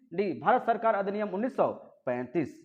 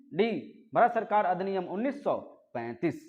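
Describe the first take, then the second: No difference in how they are said.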